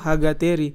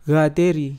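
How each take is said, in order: First: The name starts with an h sound. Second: The name starts directly with a g sound. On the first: This is how the general public says it. The speaker calls it wrong. "masyarakat umum bilang apa Hagateri karena kan kita tulisnya tuh Hagateri" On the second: This is how it is said in the local language. The speaker calls it right. "Jadi bunyinya tuh Gateri"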